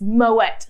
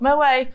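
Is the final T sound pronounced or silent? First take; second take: pronounced; silent. First: The final T sound is clearly pronounced. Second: The word ends without any T sound. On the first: The speaker calls it right. "pronounce the T" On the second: The speaker calls it wrong. "not Moe"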